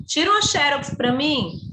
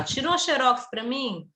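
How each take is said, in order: First: "xerox" said as XÉ-rox, stress on the first syllable, open é; xérox stressed first. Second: "xerox" said as xe-RÓX, stress on the last syllable, open ó. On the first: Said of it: "Por isso que às vezes é assim". ("xerox" pronunciado XÉ-rox, tônica na primeira sílaba com é aberto) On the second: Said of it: "Aí tem gente que fala". ("xerox" pronunciado xe-RÓX, tônica na última sílaba com ó aberto) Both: Shown as a demonstration.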